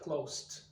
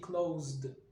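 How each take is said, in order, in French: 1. La fin se prononce avec un son t. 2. La fin se prononce avec un son d. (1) "On va pas dire closed" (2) "Et donc là, on va prononcer de"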